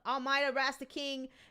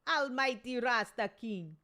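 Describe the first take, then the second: First: The name is read in his ordinary accent. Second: The name is read in a Jamaican accent.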